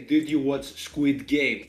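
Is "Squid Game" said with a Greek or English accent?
Greek. Everything stays in a Greek accent.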